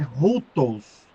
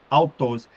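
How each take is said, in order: First: The word begins with an aspirated h-sound. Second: The word begins with a plain vowel. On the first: The speaker calls it right. "porque tem uma, uma, uma aspiração aqui" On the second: The speaker calls it wrong. "na verdade eu estou pronunciando errado"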